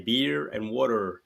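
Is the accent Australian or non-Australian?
non-Australian. It is said in a non-Australian accent. This is how the other people say it. "whereas you guys say beer and water"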